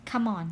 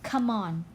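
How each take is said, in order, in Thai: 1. สองคำนี้พูดเชื่อมติดกันค่ะ 2. สองคำนี้พูดเชื่อมติดกันค่ะ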